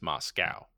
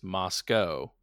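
First: It is said with an American English pronunciation. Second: It is said with a British English pronunciation. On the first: "The American English is Moscow" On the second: "the British pronunciation is Moscow"

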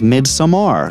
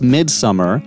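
First: The last syllable has a full 'a' vowel. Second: The last syllable is reduced, like 'mer'. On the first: The speaker calls it right. "his pronunciation was Midsommar, so I want to be accurate here" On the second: The speaker calls it wrong. "for the longest time, I was calling this Midsommar"

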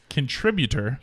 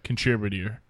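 First: The word is clearly enunciated, every syllable distinct. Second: The word is mumbled and its syllables slurred. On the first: The speaker calls it right. "Hey, there you go" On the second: The speaker calls it wrong. "You did not say contributor the first time around"

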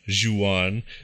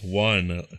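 First: The name does not sound like 'wan'. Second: The name sounds like 'wan' in Obi-Wan. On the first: The speaker calls it wrong. "It's not Juan" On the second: The speaker calls it right. "as in Obi-Wan, wonton soup"

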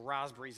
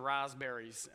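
First: It is said the Australian way. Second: It is said in a non-Australian way.

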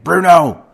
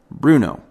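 First: The name is shouted loudly. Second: The name is said quietly and firmly. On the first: The parent is losing control and adding to the chaos. The speaker calls it wrong. "instead of saying" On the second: The parent is calmly taking control to get attention. The speaker calls it right. "he would say, Bruno, and pause"

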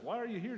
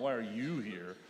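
First: The question sounds warm and welcoming. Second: The question sounds cold and confrontational. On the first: The listeners are sincerely welcomed. The speaker calls it right. "you got to read it with the right tone" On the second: The listeners are unwelcome. The speaker calls it wrong. "not why are you here?"

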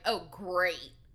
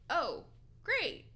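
First: It sounds sarcastic, with a clear edge of attitude. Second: It sounds politely accepting, without any edge. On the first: The speaker openly shows displeasure about the news. "Did she flick him attitude about Maya?" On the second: The speaker goes along with the news despite not liking it. "I read that as, oh, great. Even though she doesn't think it's great, but like that's what she's got to say"

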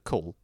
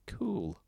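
First: The oo vowel sounds ordinary and short. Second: The oo vowel is stretched and exaggerated. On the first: "instead of cool" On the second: "the way old people say pule. That really hits the double O's"

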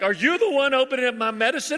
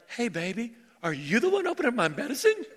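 First: It is said in a sharp, accusing tone. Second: It is said in a sweet, affectionate tone.

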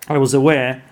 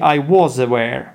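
First: The word 'was' is said in a reduced, weak form. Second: The word 'was' is said in a full, strong form. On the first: "But because [name] said quite fast" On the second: "actually, it should be I was aware"

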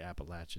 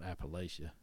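First: It is said the southern, East Tennessee way. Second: It is said the northern regional way. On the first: This is how locals in the southern mountains say it. "we say Appalachia" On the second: This is how people farther north say it. "not Appalachia. So you go north, they might say Appalachia"

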